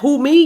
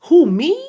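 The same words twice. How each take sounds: First: It falls like a confident statement. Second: It rises like a doubtful question.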